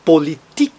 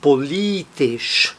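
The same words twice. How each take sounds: First: "Politik" with the weight on TIK; stress on final TIK. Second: "politisch" slowly, softer, stressed on LI; stress before -isch. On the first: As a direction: land on the last syllable of "Politik". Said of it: "ele é tônico". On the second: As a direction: stretch li in "politisch", leave tisch weak. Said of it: "sempre traz a sílaba tônica". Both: Shown as a demonstration.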